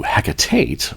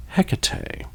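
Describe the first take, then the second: First: Hecate with a flat A first, ending "tate"; Wiccan pronunciation. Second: Hecate as HECK-a-tay, open ending; best-guess pronunciation. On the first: Host recalls Wiccan usage, Hecate said as HACK-a-tate. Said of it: "I am used to Hecate from the Wiccan religion". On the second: Host settles on best guess, Hecate said as HECK-a-tay. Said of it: "we're gonna go with my best guess". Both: Shown as a demonstration.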